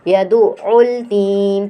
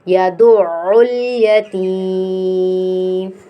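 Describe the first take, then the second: First: The ya syllable before teem is dropped. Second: The ya syllable before teem is said. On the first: The speaker calls it wrong. "बीच में एक हर्फ को ही ... खा जाते हैं" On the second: The speaker calls it right. "हमने पढ़ना है"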